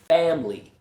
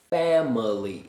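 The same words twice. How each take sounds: First: The middle syllable is dropped completely. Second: All three syllables are clearly pronounced. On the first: "if I use a lazy schwa" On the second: "as clearly as possible"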